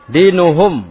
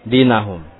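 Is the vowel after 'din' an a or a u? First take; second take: u; a. First: The vowel after 'din' is u. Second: The vowel after 'din' is a. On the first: The speaker calls it right. "walakin dinuhum wahidun" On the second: The speaker calls it wrong. "Bukan dibaca dengan dinahum"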